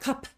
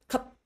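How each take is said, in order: First: The final p is released with extra air. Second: The final p stops short without release. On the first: The speaker calls it wrong. "not cup" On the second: The speaker calls it right. "It just finishes very short and then it's done"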